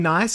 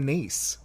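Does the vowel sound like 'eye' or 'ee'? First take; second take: eye; ee. First: The vowel sounds like 'eye'. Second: The vowel sounds like 'ee'. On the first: "Do you say nice or niece" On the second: "Do you say nice or niece"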